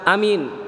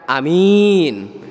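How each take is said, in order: First: Both vowels are short. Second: Only the second vowel is long. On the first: It means became safe. "A-nya pendek, min-nya pendek" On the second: It means trustworthy. "A-nya pendek, min-nya panjang"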